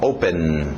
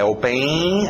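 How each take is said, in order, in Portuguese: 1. A palavra para limpa no N final. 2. Um som de vogal extra vem depois do N final. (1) "é N no final" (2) "não é open"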